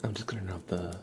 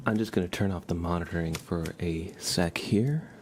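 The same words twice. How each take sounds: First: Whisper. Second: Said in the usual way. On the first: Real, not acted. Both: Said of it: "my soft speaking and whispering".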